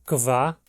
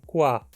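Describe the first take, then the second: First: The k is followed by a v sound. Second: The k is followed by a w sound. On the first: "Ele pode ser pronunciado kva, como no alemão padrão" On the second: "mais frequentemente soa como qua, mais próximo de um Q U do português"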